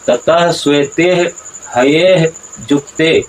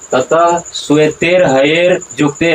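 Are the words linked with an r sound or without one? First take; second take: without r; with r. First: Shvete and haye end without any r sound. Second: An r sound links shvete and haye onward. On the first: The speaker calls it right. "उच्चारण किस तरह से है?" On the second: The speaker calls it wrong. "ऐसा उच्चारण नहीं है"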